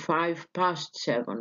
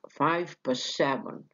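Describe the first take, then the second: First: The word past is fully stressed and unreduced. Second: The word past is reduced with elision. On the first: The speaker calls it wrong. "تقولش five past seven" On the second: The speaker calls it right. "فيها elision وفيها reduction للفاول"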